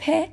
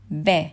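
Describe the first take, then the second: First: ب said high as an unvoiced P; voiceless P. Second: ب said loud as a voiced B. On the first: Teacher showing how vibration differs, voiceless P. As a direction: puff ب out as English "p", no vocal cord vibration. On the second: Teacher showing how vibration differs, voiced B. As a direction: make the vocal cords vibrate on ب, as English "b". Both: Shown as a demonstration. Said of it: "نحس أكو vibration يختلف بين اللفظين".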